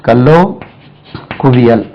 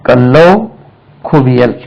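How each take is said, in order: No difference in how they are said.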